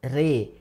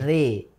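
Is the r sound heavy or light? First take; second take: light; light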